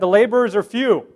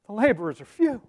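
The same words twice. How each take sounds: First: It is said calmly, as a plain fact. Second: It is said anxiously, sounding worried and panicked. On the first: It is a simple statement of fact. The speaker calls it right. "It was a statement of fact" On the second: The speaker is worried the job won't get done. The speaker calls it wrong. "You think he was in a state of panic?"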